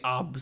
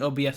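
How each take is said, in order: First: It is spoken as one word, obs. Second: Each letter is spoken separately. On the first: "I'll say O B S sometimes" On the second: "instead of saying O B S"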